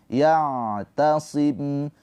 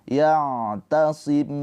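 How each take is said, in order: Both takes have the same delivery.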